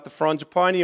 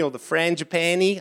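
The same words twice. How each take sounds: First: Frangipani with "ah" vowels, "fron-ji-PAH-nee"; broad-vowel variant. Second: Frangipani with "a" as in cat, "fran-ji-PAN-ee"; flat-a variant. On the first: Preacher unsure of the word, frangipani with "ah" vowels. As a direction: say frangipani with long open a's. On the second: Preacher offering another version, frangipani with cat vowels. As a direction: say frangipani with short a's. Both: Shown as a demonstration. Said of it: "I don't know how you pronounce it".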